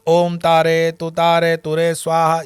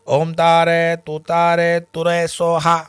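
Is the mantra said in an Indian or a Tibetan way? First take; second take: Indian; Tibetan. First: It is said with a standard Indian pronunciation. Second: It is said with a Tibetan-style pronunciation. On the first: This is how the mantra is usually said in India. "जो मंत्र हम बोलते हैं" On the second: This is how Tibetan people say the mantra. "अब तिब्बती लोग उसको कैसे बोलते हैं? ... ये थोड़ा सा सिलेबल इधर उधर"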